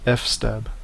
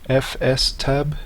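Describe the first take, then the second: First: The F and S blend into the word. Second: The letters F and S are said separately. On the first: This is how people commonly say it. "it is commonly referred to as" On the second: The name stands for file system table. "would be the correct pronunciation, as this is the file system table"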